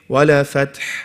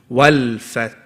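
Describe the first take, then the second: First: The l bounces with an added vowel after it. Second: The l is held with no added vowel. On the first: The speaker calls it wrong. "if you go too fast... you're going to do a bouncing sound" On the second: The speaker calls it right. "Hold on to it"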